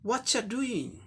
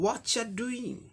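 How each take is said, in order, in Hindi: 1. पहले शब्द मिलकर एक छोटे रूप में बदल जाते हैं। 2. पहले शब्द मिलकर एक छोटे रूप में बदल जाते हैं।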